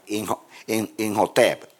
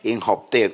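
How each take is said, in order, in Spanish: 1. La H es una j española, dura y gutural. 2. La H es una h suave, como en inglés. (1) "van a ver que la H es como la J" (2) "si lo pronunciamos en inglés"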